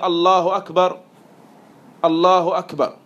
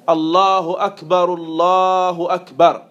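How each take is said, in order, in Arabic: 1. الجملتان مفصولتان بوقفة. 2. تُقال الجملتان بنَفَس واحد. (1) "le fait de couper le takbir" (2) "deux fois de suite avec une seule respiration"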